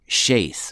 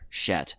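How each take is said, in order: First: The name has a long A vowel. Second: The name has a short E vowel. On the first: The speaker calls it right. "Shaith with a with a long A" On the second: The speaker calls it wrong. "I intentionally mispronounced the name here"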